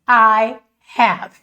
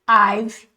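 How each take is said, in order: First: The words are said in full as two syllables. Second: The words are contracted into one short syllable. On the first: "E a outra mais comprida" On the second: "uma forma está contraída e mais curtinha"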